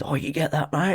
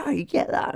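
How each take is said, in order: First: Raised, soft mock-friendly surfer voice, slightly put on; imitating the surfer. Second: Much higher, softer mock-sweet voice; squeaky, fawning imitation of the guy; mocking the surfer. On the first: Photographer mimics a surfer asking for his shot, lightly put-on voice. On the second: Photographer mocks a surfer fishing for his photo, high mock-sweet voice. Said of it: "he just was like".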